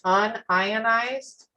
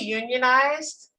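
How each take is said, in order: First: It is said as un plus ionized. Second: It is said as union plus ized. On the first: It means not split into ions. "Versus unionized" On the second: It means organized into a labor union. "you're plumber"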